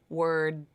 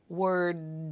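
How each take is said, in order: First: The final D is held without release. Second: The final D is fully released. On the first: The speaker calls it right. "That's the unreleased D" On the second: The speaker calls it wrong. "I didn't say word"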